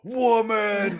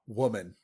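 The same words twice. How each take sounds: First: It is said loudly and forcefully. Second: It is said fairly softly.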